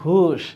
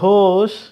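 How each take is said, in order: First: The vowel is a u sound. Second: The vowel is an o sound. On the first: The speaker calls it wrong. "ওরা বলবে ঘুষ" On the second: The speaker calls it right. "লিখেছো ঘোষ"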